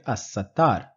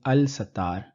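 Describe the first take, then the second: First: The L merges into a doubled S sound. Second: The L of the article is clearly pronounced. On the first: The speaker calls it right. "I am pronouncing it As-Sattar" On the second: The speaker calls it wrong. "I am not saying Al-Sattar"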